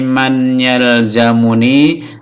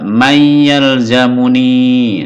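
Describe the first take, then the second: First: The n is pronounced clearly before the y. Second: The n merges into a doubled y sound. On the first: "Ini kita baca tanpa ilmu tajwid" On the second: "Kalau pakai ilmu tajwid"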